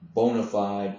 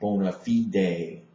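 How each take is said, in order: First: It is pronounced the English way. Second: It is pronounced the Latin way. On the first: The speaker calls it wrong. "by saying that wrong" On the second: The speaker calls it right. "the correct Latin pronunciation would be bona fide"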